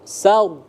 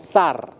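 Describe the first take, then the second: First: The R is pronounced heavy and thick. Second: The R is pronounced light and thin. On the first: The speaker calls it right. "Ro-nya tafkhim tebal" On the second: The speaker calls it wrong. "bukan sar"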